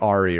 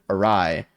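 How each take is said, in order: First: The word ends with a 'ree' sound. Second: The word ends with a 'rye' sound. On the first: The speaker calls it wrong. "did I say that correctly?" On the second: The speaker calls it right. "Definitely a rye"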